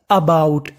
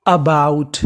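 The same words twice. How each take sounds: The two takes are said the same way.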